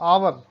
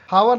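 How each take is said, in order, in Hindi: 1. यह शब्द सीधे स्वर ध्वनि से शुरू होता है। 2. इस शब्द की शुरुआत में साफ़ h ध्वनि सुनाई देती है। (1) "ये आर है" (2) "हावर नहीं"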